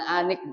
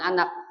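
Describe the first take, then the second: First: The second syllable has the vowel i. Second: The second syllable has the vowel a. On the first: "bukan anik" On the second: "bukan anak"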